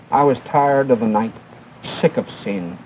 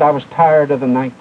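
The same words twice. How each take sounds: First: Fading despair. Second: Said in the usual way. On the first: Retold or imitated. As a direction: lower and softer, fading to a near hush. Dying girl's last words.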